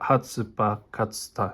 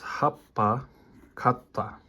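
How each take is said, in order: First: An extra 'tsu' syllable is pronounced instead. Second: The consonants are doubled with a short hold. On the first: The speaker calls it wrong. "No, that's wrong" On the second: The speaker calls it right. "we are supposed to extend the consonant of the next letter"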